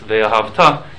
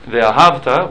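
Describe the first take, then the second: First: The stress falls late in the word. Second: The stress falls early in the word. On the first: It means you will love, as a command. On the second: It means you loved, in the past.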